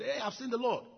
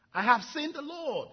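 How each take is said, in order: First: Excited news. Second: High, loud and slow, bursting with joy; excited exclaim. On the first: Mary telling disciples. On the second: Mary telling the disciples she saw the Lord, elated cry. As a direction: announce it like the best news ever. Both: Acted.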